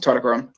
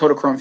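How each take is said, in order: First: The name's start does not echo 'Koda'. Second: The name's start echoes 'Koda' from Kodachrome. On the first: It is the speaker's own way of saying the name. "I pronounce it Totochrome" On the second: It recalls the old Kodak film. "to be like that Totochrome film from way back when"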